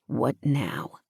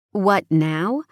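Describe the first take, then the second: First: Low, soft, falling question; male lead's question. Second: Female lead's echo. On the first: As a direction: ask it low and soft, letting it fall. Hero asks, heroine echoes. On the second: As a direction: echo it back with a rising end. Heroine echoes hero's question. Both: A narrator's reading.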